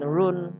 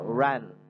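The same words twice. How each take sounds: First: The vowel sounds like 'u'. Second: The vowel sounds like 'a'. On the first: The speaker calls it wrong. "jangan run" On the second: The speaker calls it right. "U jadi A"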